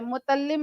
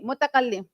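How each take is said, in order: First: The middle 'ka' syllable is left out. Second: The middle 'ka' syllable is pronounced. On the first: The speaker calls it wrong. "मुतल्लिम नहीं" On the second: The speaker calls it right. "मुतकल्लिम होता है भाई"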